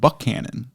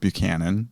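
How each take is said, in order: First: The second syllable has a 'k' sound. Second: The second syllable has a 'ch' sound. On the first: This is how the local people say it. "the people there call it Buckhannon" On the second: This is how the spelling suggests it is said. "It looks like Buchanan"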